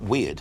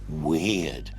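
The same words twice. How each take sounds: First: The word is said plainly, without extra force. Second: The word is said with strong, drawn-out emphasis. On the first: Ordinary oddness. "Not weird" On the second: Something truly unusual. "but weird ... really emphasizing the unusualness"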